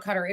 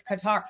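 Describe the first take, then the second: First: Qatar said "CUT-er"; rejected pronunciation. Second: Qatar said "kuh-TAR", softly; corrected pronunciation. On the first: People telling host what is wrong, Qatar as CUT-er. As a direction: say Qatar with stress up front, like cutter. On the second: People correcting host, Qatar as soft kuh-TAR. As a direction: stress the last syllable of Qatar, kuh-TAR. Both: Retold or imitated. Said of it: "people were like".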